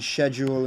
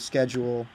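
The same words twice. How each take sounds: First: It is said with a British pronunciation. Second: It is said with an American pronunciation. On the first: A British habit slipped through. The speaker calls it wrong. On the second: It fits the intended accent. The speaker calls it right.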